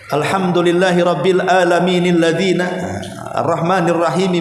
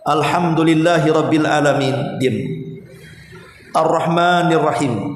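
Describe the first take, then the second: First: The two verses run together without a pause. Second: There is a pause between the two verses. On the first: The verses are joined together, which does not follow the Sunnah. The speaker calls it wrong. "ada orang yang membaca Al-Fatihah dengan disambung" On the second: Each verse is recited separately, as the Sunnah teaches. The speaker calls it right. "dipotong-potong setiap ayatnya, jangan disambung"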